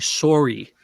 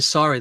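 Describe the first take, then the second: First: The first syllable sounds like the word 'sore'. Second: The first syllable does not sound like 'sore'. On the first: "They say sorry, sorry, sorry, like a sore, sore throat" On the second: "they don't say sorry"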